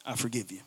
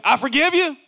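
First: Much lower, much softer, cold I forgive you; resentful. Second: Higher, warm, sincere I forgive you. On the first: Spouse forgiving partner grudgingly, low and cold. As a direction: mutter it with resentment. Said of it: "Same words, totally different spirit". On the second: Spouse forgiving partner, higher and sincere. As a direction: forgive them openly and kindly. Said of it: "It's the difference between". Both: Shown as a demonstration.

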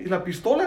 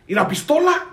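First: Said in the usual way. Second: Sharp, higher cop question, rising at the end; cop's curt demand. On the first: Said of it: "I was like". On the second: Retold or imitated. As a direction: snap it out like the officer did. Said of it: "Just like that".

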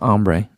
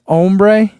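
First: "ombre" with AHM first, AHM-bray; mistaken pronunciation. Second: "Ombre" with OHM first, OHM-bray; corrected pronunciation. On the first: Repeating own mistake after a viewer's correction, "ombre" said AHM-bray. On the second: Reading a viewer's correction aloud, "Ombre" said OHM-bray. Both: Shown as a demonstration. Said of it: "not ombre".

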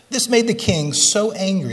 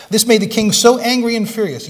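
First: Said in the usual way. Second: Angry and furious pushed out higher and louder; stress on angry and furious. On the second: Shown as a demonstration. Preacher pressing the congregation on angry and furious, loud and raised. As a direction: hit angry and furious hard. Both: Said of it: "Underline that word angry and the next word furious".

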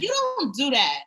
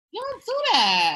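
First: Said in the usual way. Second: Scolding shout. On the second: Retold or imitated. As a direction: yell it like a scolding. Scolding Michael, repeated louder.

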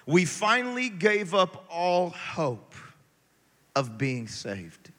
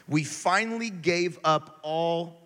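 First: Finally stressed and drawn out, slow; slow emphatic reading. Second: Said in the usual way. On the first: Shown as a demonstration. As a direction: lean on finally, then let it fall. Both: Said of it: "what does it say?".

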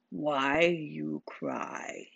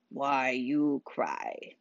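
First: Bartholomew's voice. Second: Low, slow simple-giant voice; drawn out like a slow, gentle giant; low and unhurried village simpleton; Bartholomew's voice. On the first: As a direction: ask it again, slow and soft. Bartholomew repeats his question. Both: A narrator's reading.

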